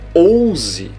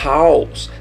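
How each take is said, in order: First: The word starts directly with a vowel. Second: The word starts with a soft h sound. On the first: The speaker calls it wrong. "Você não vai falar house ou ouse" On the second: The speaker calls it right. "Tem o som de R fraco"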